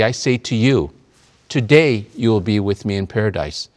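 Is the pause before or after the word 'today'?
before. The pause comes before the word today. Being in paradise will happen this very day. The speaker calls it wrong. "they put the comma in the wrong place"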